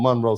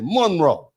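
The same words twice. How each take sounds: First: Said in the usual way. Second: "Monroe" with MON punched hard; stress on MON. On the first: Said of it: "how people from Monroe say Monroe". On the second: Shown as a demonstration. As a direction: lean heavily on the first syllable of "Monroe". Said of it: "you put a lot of emphasis on the Mon".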